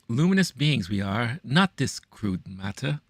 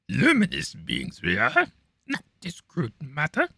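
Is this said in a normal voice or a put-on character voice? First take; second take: normal; character voice. First: It is said in his ordinary speaking voice. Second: It is said in a put-on creature voice. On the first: The speaker calls it wrong. "I didn't do that justice" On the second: The speaker calls it right. "I should do that in my Yoda voice"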